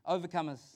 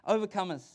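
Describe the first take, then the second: First: Said in the usual way. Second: "overcomers" said louder and firmer; emphatic repeat. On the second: Real, not acted. Preacher repeats it to the congregation, emphatic. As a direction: punch out "overcomers".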